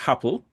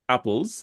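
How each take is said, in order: First: The word starts with an added H sound. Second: The word starts directly with the vowel. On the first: "Jamaicans pronounce all of their vowels with a H" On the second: "Instead of saying apples"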